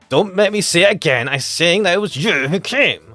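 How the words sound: It is shouted angrily.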